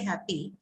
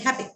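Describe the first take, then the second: First: The final vowel is long and fully articulated. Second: The final vowel is very short and reduced. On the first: The speaker calls it wrong. "You don't say happy" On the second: The speaker calls it right. "you say happy. It's done"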